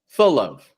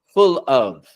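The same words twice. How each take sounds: First: A light L links smoothly into the next word. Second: The dark L is cut off before the next word. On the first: The speaker calls it right. "It connects, no breaks" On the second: The speaker calls it wrong. "instead of saying"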